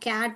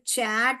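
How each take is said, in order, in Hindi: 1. शब्द की शुरुआत k ध्वनि से होती है। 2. शब्द की शुरुआत ch ध्वनि से होती है। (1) "कैट बोलते हैं" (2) "चैट बोलते हैं"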